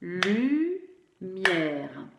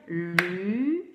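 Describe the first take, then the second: First: "lumière" in two beats, lu-mière, silent final e; everyday two-syllable pronunciation. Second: "lumière" in three separate beats, lu-miè-re; detailed syllables, final e voiced. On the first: Teacher showing everyday speech, "lumière" in two syllables without final e. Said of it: "quand on parle dans la vie de tous les jours". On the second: Teacher showing spelling speech for CP, "lumière" as lu-miè-reu. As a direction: split "lumière" slowly and sound the final e as "reu". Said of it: "il va falloir bien détailler les syllabes". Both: Shown as a demonstration.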